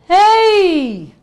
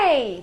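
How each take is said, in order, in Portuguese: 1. Um chamado projetado, sem gritar nem forçar a garganta. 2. Um grito alto espremido na garganta, sem projeção. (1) "o mesmo ei, sem gritar, com projeção" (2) "Vou fazer um forte totalmente na garganta, sem projeção"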